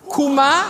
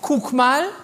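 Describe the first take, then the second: First: The words are squeezed together into one short form. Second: Both words are pronounced fully and separately.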